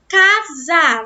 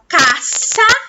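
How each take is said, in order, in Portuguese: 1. A consoante do meio é um z vibrado. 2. A consoante do meio é um s sibilante. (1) "a gente faz casa. Za" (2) "a gente não fala caça? ... A gente não fala o som forte"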